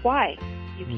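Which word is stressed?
why. The stress is on "why".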